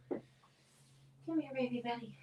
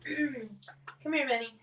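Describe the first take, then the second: First: Softer, cooing pet voice. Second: Bright, rising call to a pet; calling the dog. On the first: Coaxing her dog Benny closer, soft cooing baby talk. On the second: Calling her dog Benny over to the camera, rising call. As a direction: call him over with a lift at the end. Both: Real, not acted.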